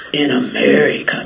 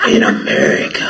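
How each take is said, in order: First: Deep cop voice. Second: Much lower, breathy cop impression; the cop again, voiced even deeper. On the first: Retold or imitated. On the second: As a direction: sink right down into his voice. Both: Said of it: "That's how his voice sounded".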